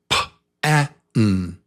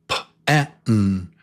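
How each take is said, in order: No difference in how they are said.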